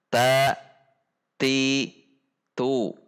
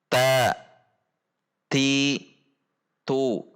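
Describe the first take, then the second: The two takes are said the same way.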